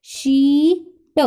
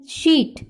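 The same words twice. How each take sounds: First: शीट slowly segmented, long ee held before a separate t; long EE sound. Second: Said in the usual way. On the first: Shown as a demonstration. Teacher showing the long sound, शीट with drawn-out ee. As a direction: hold the ee in शीट, then add t. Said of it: "long sound आएगी".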